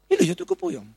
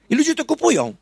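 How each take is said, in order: First: "I" podbite wysoko; stress on I. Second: "ludzie" rzucone wysoko i głośno; stress on ludzie. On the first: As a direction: lift the opening "I" high. (nacisk na "I" na początku) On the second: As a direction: hit "ludzie" high and loud. (nacisk na "ludzie", wysoko i głośno) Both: Real, not acted. Repeats line with emphasis.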